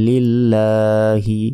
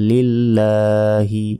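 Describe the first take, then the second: The two takes are said the same way.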